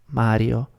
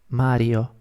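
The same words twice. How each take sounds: The two takes are said the same way.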